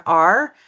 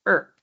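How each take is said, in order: First: "are" said with its full open vowel. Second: "er" as a short r-coloured schwa; reduced "are". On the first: Coach showing the word before reduction, "are" in full. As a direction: give "are" its whole, stressed sound. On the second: Coach showing reduction to student, "are" reduced to "er". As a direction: shrink "are" down to a quick "er". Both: Shown as a demonstration. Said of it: "we're reducing the word "are" to "er".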